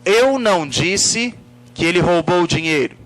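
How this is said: The word eu carries the emphasis. It refers to who said it. "Se eu coloco a ênfase na palavra eu"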